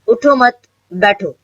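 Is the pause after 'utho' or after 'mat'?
after mat. There is a pause after 'mat'.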